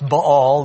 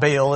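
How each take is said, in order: First: The word has a Hebrew-style pronunciation. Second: The word has an English-style pronunciation. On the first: The speaker calls it right. "proper Hebrew pronunciation" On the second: The speaker calls it wrong. "It's not Baal"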